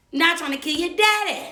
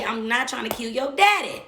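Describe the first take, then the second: First: Higher, louder pleading repeat. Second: Said in the usual way. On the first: Retold or imitated. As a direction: push the repeat up, exasperated. Repeating plea to partner's kids.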